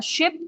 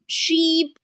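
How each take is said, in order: First: Ship with a quick, short i sound. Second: Sheep with a long, stretched ee. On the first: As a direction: clip the vowel in ship short. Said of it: "Let me give some common mistakes". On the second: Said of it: "Keep the sound long and clear". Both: Shown as a demonstration.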